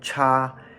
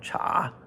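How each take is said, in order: First: The pitch stays high and level. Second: The pitch dips low and comes back up. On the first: "First tone cha" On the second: "third tone cha"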